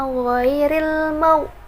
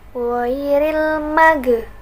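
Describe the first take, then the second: First: The consonant after 'ma' is held smoothly, without bouncing. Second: The consonant after 'ma' is bounced with a release. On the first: The speaker calls it right. "Harusnya ghairil mau, diangkat gitu mulutnya" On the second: The speaker calls it wrong. "nggak boleh dibaca"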